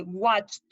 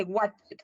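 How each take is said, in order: First: "watched" as one syllable ending in "-tcht"; correct pronunciation. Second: "watched" said Spanish-style, ending "-che" with an added vowel; wrong pronunciation. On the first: Teacher models the right "watched", slowly. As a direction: close "watched" with a t and no vowel. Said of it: "se dice watched". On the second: Teacher shows the students' wrong "watched", slowly. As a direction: end "watched" on an open "che". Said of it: "No se dice watched". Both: Shown as a demonstration.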